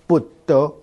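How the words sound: It begins with a b sound and a d sound. "闽南话的佛陀怎么念呢？ 哎， 我们念成布德"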